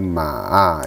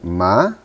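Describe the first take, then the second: First: The pitch dips down then rises. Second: The pitch rises upward. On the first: It means a horse. "Ma dengan nada ketiga" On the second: It means fiber. "ma dengan naik"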